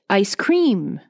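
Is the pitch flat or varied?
varied. The pitch moves up and down noticeably.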